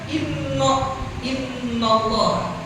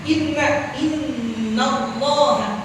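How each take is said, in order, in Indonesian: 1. Vokal setelah n condong ke o. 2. Vokal setelah n jelas a. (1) "Jangan dibaca" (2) "mesti kan inna dibaca"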